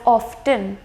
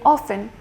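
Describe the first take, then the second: First: The T sound is clearly pronounced. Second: The T sound is silent. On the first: This is the original older pronunciation. "it was pronounced as often" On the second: This is the later evolved pronunciation. "the T became silent, so then it became often"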